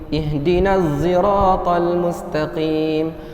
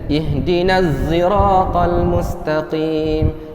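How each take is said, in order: The two takes are said the same way.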